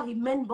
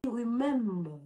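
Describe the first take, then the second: First: "remember" said as "ree-MEN-ba"; French-accented "remember" ending in an open "ba"; mispronounced "remember". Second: "remember" drawn out as "ri-MEMM-ber"; corrected "remember". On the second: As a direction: slowly model "remember", holding the m. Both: Shown as a demonstration. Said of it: "on dit remember".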